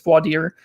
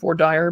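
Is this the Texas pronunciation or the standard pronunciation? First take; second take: standard; Texas. First: It is said with the standard pronunciation. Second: It is said with a Texas pronunciation. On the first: The speaker calls it right. "but I know it's voir dire" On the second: The speaker calls it wrong. "In Texas, they call it voir dire"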